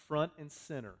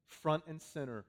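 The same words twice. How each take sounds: The two takes are said the same way.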